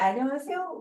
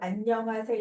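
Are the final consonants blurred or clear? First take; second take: blurred; clear. First: The final consonants are blurred and weak. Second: The final consonants are pronounced clearly. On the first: It sounds like a Korean who grew up abroad. The speaker calls it wrong. "막 이래요" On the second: It sounds like a native Korean speaker. The speaker calls it right. "이렇게 말을 하라고"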